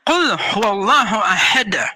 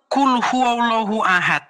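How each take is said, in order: First: The final d of ahad ends with an echoing bounce. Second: The final d of ahad ends flat, without bounce. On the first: The speaker calls it right. "tapi Qul huwallahu ahad. Harus ahad gitu" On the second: The speaker calls it wrong. "bacanya bukan Qul huwallahu ahad"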